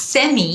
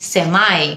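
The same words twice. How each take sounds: First: "সেমি" as SEM-ee, pitched up; British pronunciation. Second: "সেমাই" as SEM-eye; American pronunciation. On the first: Teacher labels the British form, "সেমি" as SEM-ee. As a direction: EE ending on "সেমি". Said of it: "British উচ্চারণ". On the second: Teacher labels the American form, "সেমাই" as SEM-eye. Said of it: "American উচ্চারণ". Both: Shown as a demonstration.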